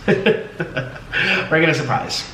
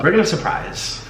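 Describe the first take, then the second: First: Slow, laughing through the words. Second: Said in the usual way. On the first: Real, not acted. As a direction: say it slowly while laughing.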